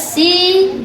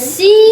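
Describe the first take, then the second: First: The vowel is held longer. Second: The vowel is held briefly. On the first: "si panjang" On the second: "ya pendek"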